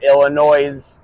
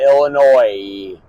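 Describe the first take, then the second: First: The final s is sounded. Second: The final s is silent.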